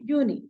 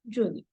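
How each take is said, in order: First: The word begins with a Y sound. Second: The word begins with a J sound. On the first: The speaker calls it right. "J is pronounced as year and not J" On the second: The speaker calls it wrong. "and not Juni"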